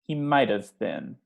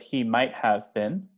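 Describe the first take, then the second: First: 'Might have' is contracted into one reduced chunk. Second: Each word of 'might have' is said in full. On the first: The speaker calls it right. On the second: The speaker calls it wrong.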